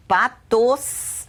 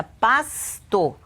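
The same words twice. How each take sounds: First: "patos" with the S held at the very end; child's misspelling. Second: "pasto" drawn out in two parts, pas-to; dictation. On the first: Showing how the child writes pasto, drawn-out "patos". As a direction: say "patos" slowly, hissing the final S. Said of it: "Essa criança vai escrever". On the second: Dictating a word to a child, slow split "pasto". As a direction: dictate "pasto" slowly, holding the S before "to". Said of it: "eu dito pra essa criança". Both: Shown as a demonstration.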